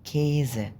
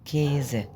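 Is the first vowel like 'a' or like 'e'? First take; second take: e; e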